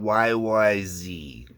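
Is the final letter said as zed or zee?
zee. The last letter is said American-style, zee.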